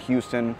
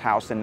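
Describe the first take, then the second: First: The first syllable sounds like 'hue'. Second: The first syllable sounds like 'how'. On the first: This pronunciation marks someone as a tourist. The speaker calls it wrong. "not Houston" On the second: This is the local New York pronunciation. The speaker calls it right. "it is pronounced Houston"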